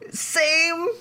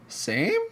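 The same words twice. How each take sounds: First: It sounds eager. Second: It sounds perplexed.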